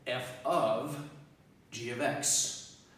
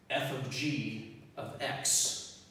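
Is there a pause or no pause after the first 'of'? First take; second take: pause; no pause. First: A pause comes right after the first 'of'. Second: No pause comes right after the first 'of'. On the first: It means f applied to the value g of x. "Now I'm going to pause after the first of, but say the same words" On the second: It names the composed function f of g, applied to x. "So before"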